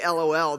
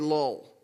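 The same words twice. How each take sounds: First: It is spoken as three separate letters. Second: It is spoken as one single word. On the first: "They won't say LOL" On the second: "They will say lol"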